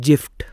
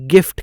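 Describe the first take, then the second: First: The word begins with a j sound. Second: The word begins with a hard g sound. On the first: The speaker calls it wrong. "एक बच्चा खड़ा होकर बोलेगा जी I F T जिफ्ट" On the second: The speaker calls it right. "जिफ्ट नहीं गिफ्ट कहते हैं"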